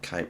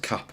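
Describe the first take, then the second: First: The vowel is long, as in 'cape'. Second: The vowel is short, as in 'cap'. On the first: The speaker calls it wrong. "apologies for the wrong pronunciation" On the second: The speaker calls it right. "it's Cap, not Cape"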